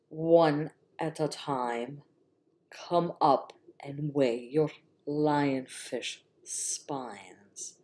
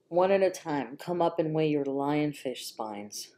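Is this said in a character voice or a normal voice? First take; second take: character; normal. First: It is said in a put-on character voice. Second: It is said in the speaker's ordinary voice. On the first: The speaker calls it right. "that's my Snape voice" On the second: The speaker calls it wrong. "I didn't do my fucking Snape voice"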